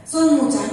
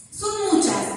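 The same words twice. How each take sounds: First: "Son muchas" said again louder; louder repeat. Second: "Son" lifted high, then falls; preacher hits "Son" up high; stress on SON. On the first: Preacher repeats "Son muchas" louder to the church. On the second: Preacher stresses "Son" high to the church. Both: Shown as a demonstration.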